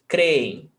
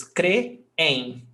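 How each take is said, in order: First: Said in the usual way. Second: Creem split slowly into "cre-em"; two syllables. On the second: Shown as a demonstration. Teacher showing a hiatus, creem pulled into two separate syllables. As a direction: break creem apart, "cre", then "em". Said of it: "we've got two syllables".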